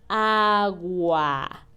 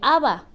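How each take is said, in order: First: The middle is a slow, clearly articulated gw. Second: The middle consonant is a plain b sound. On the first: The speaker calls it right. "pausado y bien articulado" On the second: The speaker calls it wrong. "no, no, no, acuérdate que es agua"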